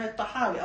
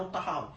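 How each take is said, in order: First: First الطحاوي with a doubled consonant; with gemination. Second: Second الطحاوي with single consonants; lightened, no gemination. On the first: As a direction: pronounce الطحاوي with tashdid. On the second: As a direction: pronounce الطحاوي without tashdid. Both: Shown as a demonstration. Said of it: "إذا التشديد والتخفيف مقبول".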